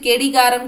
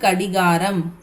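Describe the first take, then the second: First: The first vowel sounds like 'e'. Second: The first vowel sounds like 'a'. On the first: The speaker calls it wrong. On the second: The speaker calls it right.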